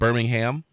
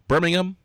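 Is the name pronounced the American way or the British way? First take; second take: American; British. First: The name is pronounced the American way. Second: The name is pronounced the British way. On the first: It names the city in Alabama. The speaker calls it wrong. "not Birmingham. That's in Alabama" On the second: It names the city in the UK. The speaker calls it right. "Actually, it's Birmingham"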